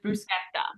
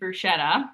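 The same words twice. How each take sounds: First: The middle consonant is a K sound. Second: The middle consonant is not a K sound. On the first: The speaker calls it right. "that C H is always that K sound" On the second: The speaker calls it wrong. "That is not the Italian way to pronounce it"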